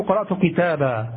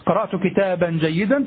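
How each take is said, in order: First: كتابا ends on a long a with no n at the pause; pause form. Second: كتابا said kitaban with nunation before جيدا; nunation in connected speech. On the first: Teacher showing students the pausal form كتابا with no n. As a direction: stop on كتابا as kitaba, dropping the n. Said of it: "إذا وقفت على كتاب". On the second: Teacher showing students nunation on كتابا in connected speech. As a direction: sound the n on كتابا mid-phrase. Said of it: "تقول". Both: Shown as a demonstration.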